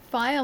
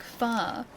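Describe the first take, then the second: First: Said in the usual way. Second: "fa" as one drawn-out open syllable; fire flattened to fa. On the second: Shown as a demonstration. Streamer asking which accent does it, "fire" as "fa". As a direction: stretch "fa" to "fah", dropping glide and R. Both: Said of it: "What accent pronounces fire like fa".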